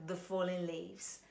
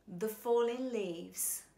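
First: "the falling leaves" with "the" reduced to a weak schwa, slowly. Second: "the falling leaves" said slowly with a full vowel in "the"; stretched out careful reading. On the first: Voice teacher giving the corrected schwa version of the lyric. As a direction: say "the" short and neutral before "falling leaves". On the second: Voice teacher reading the opening of Autumn Leaves slowly. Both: Shown as a demonstration. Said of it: "theではなく".

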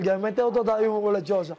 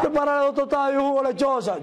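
First: Said in the usual way. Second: Higher-pitched order as the gringo; lightly voiced boss giving an order, pitched up; put-on high ordering voice; imitated gringo.

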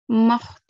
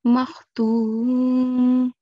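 First: Makhtumin with the final "-in" sounded; long "tuu", then a clear "min" at the end; full tanween ending. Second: Makhtum held long on "tuum", no "-in" ending; recited makhtum, final vowel dropped for the pause; stopped with sukoon. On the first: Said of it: "So instead of saying". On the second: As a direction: stretch "tuu" and close on a still "m". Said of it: "we'll say". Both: Shown as a demonstration.

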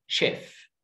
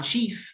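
First: شيف with a short e; correct pronunciation. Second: شيف with a long ee; wrong pronunciation. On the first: Teacher gives the real word, شيف as short-vowelled "shef". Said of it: "لا، اسمها". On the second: Teacher voices the expected mistake, شيف as rising "sheef". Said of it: "لا، اسمها شيف". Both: Shown as a demonstration.

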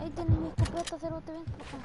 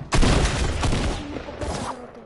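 First: Said in the usual way. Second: "Ahí tenés mi escopeta" roared out loud and raspy; loud taunt. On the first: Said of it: "repeated taunt". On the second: Shown as a demonstration. Gamer taunting an enemy with his shotgun, loud roar. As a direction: throw the taunt at full volume. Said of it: "repeated taunt, louder".

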